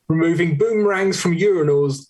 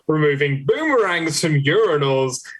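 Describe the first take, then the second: First: It is read without much pitch movement. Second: It is read with lively, varied pitch movement.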